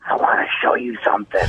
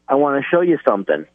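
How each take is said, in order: First: It is whispered in a creepy way. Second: It is spoken aloud in a normal voice.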